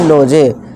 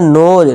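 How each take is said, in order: First: The final e is sounded as a vowel. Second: The final e is not sounded at all. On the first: The speaker calls it wrong. "नोज ना कि नोजे" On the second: The speaker calls it right. "नोज ना कि नोजे"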